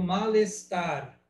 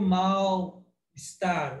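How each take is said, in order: First: The final consonant links into the next vowel. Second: The two parts are said separately. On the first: The speaker calls it right. "eu junto" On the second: The speaker calls it wrong. "Eu não digo mal-estar"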